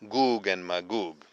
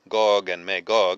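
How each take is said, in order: First: The first name has a long 'oo' vowel. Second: The first name has a short 'o' vowel. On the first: The speaker calls it right. "It should be Goog and Magog" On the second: The speaker calls it wrong. "in English we pronounce mispronounce it Gog and Magog"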